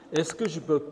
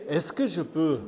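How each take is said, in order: Both takes have the same delivery.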